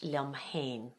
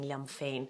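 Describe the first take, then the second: First: The second word begins with an H sound. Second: The second word begins with an F sound. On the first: This is the speaker's everyday dialect form. "in my colloquial Irish" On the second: This is the standard form used for singing. "but you can sing liom féin"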